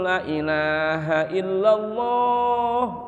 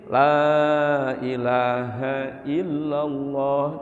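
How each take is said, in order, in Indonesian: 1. Vokal dalam 'la' dipotong pendek. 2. Vokal dalam 'la' dibaca cukup panjang. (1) "ini berarti korupsi huruf itu" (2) "biar panjangan dikit"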